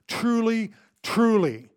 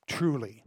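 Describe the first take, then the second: First: "truly, truly" with both words hit hard and high; emphatic repeat. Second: Said in the usual way. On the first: Shown as a demonstration. Preacher showing the repeat for emphasis, "truly, truly" stressed on both words. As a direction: punch each "truly" separately, louder. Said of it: "Don't miss the repeat for emphasis". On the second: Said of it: "Jesus doesn't just say to him".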